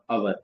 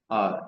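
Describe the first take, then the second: First: It is said with an 'ow' vowel sound. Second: It is said like the letter R. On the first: The speaker calls it wrong. "not our" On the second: The speaker calls it right. "it's R"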